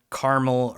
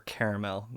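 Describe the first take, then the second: First: "caramel" said as CAR-mul; two-syllable caramel. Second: "caramel" said as KAIR-uh-mel; three-syllable caramel. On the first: Host comparing two pronunciations, CAR-mul for "caramel". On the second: Host comparing two pronunciations, KAIR-uh-mel for "caramel". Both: Shown as a demonstration. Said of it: "it's like caramel or caramel".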